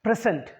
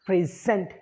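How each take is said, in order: First: It is pronounced as the noun form. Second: It is pronounced as the verb form. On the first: It names a thing. "As a noun, first as a noun" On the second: It names an action. "as verbs"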